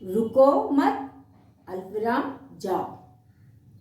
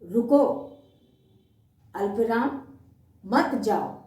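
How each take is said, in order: First: The break comes right after the word mat. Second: The break comes right after the word ruko. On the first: The listener is told not to stop but to go. "अल्पविराम" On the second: The listener is asked to stop and not leave. "अल्पविराम"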